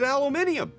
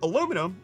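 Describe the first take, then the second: First: The word is said with five syllables, ending in 'nee-um'. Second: The word is said with four syllables, ending in 'num'. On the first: This is the British form of the word. "makes it aluminium" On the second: This is the American form of the word. "But adding an I to aluminum makes it aluminium"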